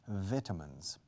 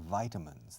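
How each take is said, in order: First: It is said in a British accent. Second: It is said in an American accent. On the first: "los británicos dicen vitamins. Y los irlandeses" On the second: "the American and Canadian pronunciation"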